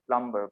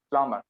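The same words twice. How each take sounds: First: The b in the middle is pronounced. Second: The b in the middle is silent. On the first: The speaker calls it wrong. "It's very common to say plumber" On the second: The speaker calls it right. "but it's plumber"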